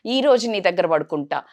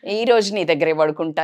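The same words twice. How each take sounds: First: Whiny pleading. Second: Put-on a child's coaxing whine, a bit louder; whiny pleading. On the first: Retold or imitated. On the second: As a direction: beg to sleep beside her, sulking. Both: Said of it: "అని మారం చేస్తుంటారు".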